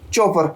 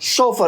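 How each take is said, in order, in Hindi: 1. इस शब्द की शुरुआत कड़ी ch की आवाज़ से होती है। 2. इस शब्द की शुरुआत नरम sh की आवाज़ से होती है। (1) "not चोफर" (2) "the right pronunciation is सोफर"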